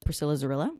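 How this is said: The name is said with American pronunciation.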